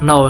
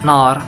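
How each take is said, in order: First: The vowel is a plain standard O sound. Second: The vowel sounds open, like 'nar'.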